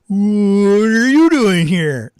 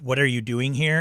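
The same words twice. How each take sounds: First: It is said in an exaggerated, put-on voice. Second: It is said in an ordinary, normal voice. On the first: This is the surprise version that made the others laugh. "when he changed it up live" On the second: This is how it was done in rehearsal. "in normal in a normal voice"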